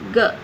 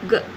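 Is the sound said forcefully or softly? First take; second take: forcefully; softly. First: The sound is said with strong force. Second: The sound is said lightly without force. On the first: The speaker calls it wrong. "அழுத்தமாக சொல்லக்கூடாது" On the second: The speaker calls it right. "க க அப்படி சொல்லணும்"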